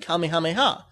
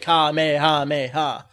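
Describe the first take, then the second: First: The word is said quickly with even syllables. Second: The word is drawn out with a stressed syllable. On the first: The speaker calls it right. "when they say it fast, they say it properly" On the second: The speaker calls it wrong. "when they're doing an actual attack"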